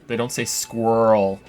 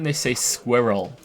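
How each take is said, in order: First: It is said rhyming with whirl. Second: It is said with a British pronunciation. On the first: "like whirl, but with an S" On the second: "In Britain, they say squirrel"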